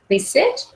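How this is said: The voice rises at the end like a question. The request is open to negotiation. The speaker calls it wrong. "Don't want it to sound like a question"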